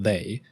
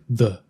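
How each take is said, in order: First: The vowel is full, like 'thay'. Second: The vowel is short and reduced, like 'thuh'. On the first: This is the standard full form. "Not they" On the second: This is the casual dialect form. "The is efficient"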